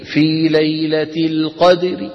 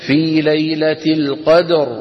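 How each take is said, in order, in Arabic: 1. الراء مرققة، مع كسرة خفيفة. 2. الراء مفخمة، ولا حركة بعدها. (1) "وعند الوقف بالروم نعاملها معاملة الوصل" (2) "لو وقفنا بالسكون"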